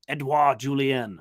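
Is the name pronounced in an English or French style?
French. The name is said with French-style sounds. The speaker calls it right. "I believe it's supposed to be like"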